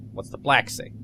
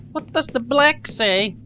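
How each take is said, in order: First: Said in the usual way. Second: Exaggerated repeat.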